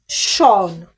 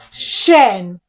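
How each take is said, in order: First: The ending has a long open 'shawn' vowel. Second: The ending has a short weak 'shun' vowel. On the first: The speaker calls it wrong. "that is a very wrong way to read those words" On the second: The speaker calls it right. "you read it as Shen"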